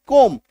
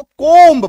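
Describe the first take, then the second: First: कोम्ब said as "kom", ending on M; short, firm कोम्ब with no B sound; silent B. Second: कोम्ब said loud and drawn out with an audible final B; loud mistaken reading of कोम्ब, B pronounced; wrong pronunciation, B sounded. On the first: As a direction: drop the B in कोम्ब and close on M. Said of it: "इसको simply क्या पढ़ना है". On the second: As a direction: stretch कोम्ब and voice the B at the end. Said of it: "गलत है भाई". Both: Shown as a demonstration.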